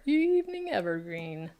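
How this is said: It is said in a put-on butler voice.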